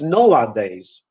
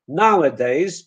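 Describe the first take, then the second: First: The first vowel is a plain o sound. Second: The first vowel is the English ow diphthong. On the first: The speaker calls it wrong. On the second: The speaker calls it right.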